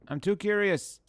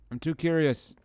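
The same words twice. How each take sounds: First: Too pitched high and hit hard; I'm too curious, too punched up high; stress on too. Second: Curious leaned on, falling; I'm too curious with the weight on curious; stress on curious. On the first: Streamer repeating the line, now hitting too. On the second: Streamer playing a game, stressing curious. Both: Shown as a demonstration.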